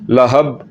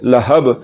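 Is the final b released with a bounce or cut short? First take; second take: cut short; bounce. First: The final b ends flat with no bounce. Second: The final b ends with a sharp echoing bounce. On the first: The speaker calls it wrong. "कलकले के बगैर" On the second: The speaker calls it right. "कलकले के साथ पढ़ना है, झटके के साथ पढ़ना है"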